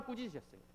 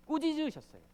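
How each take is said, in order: First: Said in the usual way. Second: 꾸짖으셨어요 lifted high and punched; stressed rebuked. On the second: Shown as a demonstration. Preacher stressing 꾸짖으셨어요 to the congregation, said high and punched. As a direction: lift 꾸짖으셨어요 up high with force.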